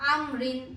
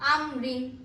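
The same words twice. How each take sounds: The two takes are said the same way.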